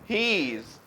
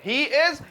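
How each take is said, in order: First: The words are joined into one short syllable. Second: Both words are said fully and separately. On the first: "subject और is M R को मिला के" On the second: "subject और is M R को मिला के"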